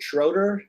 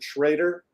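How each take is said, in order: First: The vowel in the name sounds like 'oh'. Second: The vowel in the name sounds like 'ay'. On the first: This is how other people say the family name. "Other people pronounce it Schroeder" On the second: This is how the speaker says the family name. "I pronounce it Schrader"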